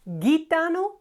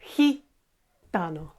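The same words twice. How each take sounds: First: It starts with a hard g sound. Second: It starts with a breathy h sound. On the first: The speaker calls it wrong. "not gitano" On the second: The speaker calls it right. "G followed by I in Spanish is he"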